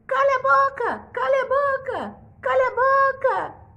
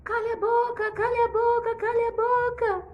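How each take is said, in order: First: Very high, loud squawking parrot; a shrill bird repeating the king. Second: The bird echoing the king; parrot shouting. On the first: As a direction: screech it like an angry parrot. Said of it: "o papagaio". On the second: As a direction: parrot yelling back the words. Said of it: "começou a gritar". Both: Acted.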